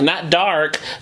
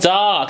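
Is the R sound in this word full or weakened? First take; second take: full; weakened. First: The R sound is fully pronounced. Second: The R sound is weakened or dropped. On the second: "there's a little bit of an omission or a lessening of the R"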